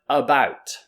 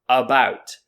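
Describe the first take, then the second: No difference in how they are said.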